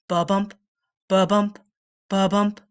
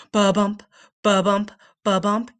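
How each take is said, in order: Both takes have the same delivery.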